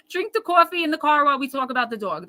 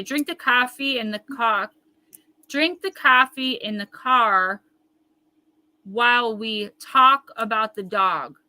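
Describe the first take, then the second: First: Quick, easy run of "Drink the coffee in the car while we talk about the dog"; higher, faster, with the words flowing together; the right way. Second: Slow, over-careful reading of "Drink the coffee in the car", every word spelled out; a halting, self-conscious attempt to say "coffee" and "car" without her accent; stiff, deliberate practice of "Drink the coffee in the car while we talk about the dog"; careful accent-free try. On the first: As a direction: toss off "coffee" and "dog" as if in passing. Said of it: "That's it".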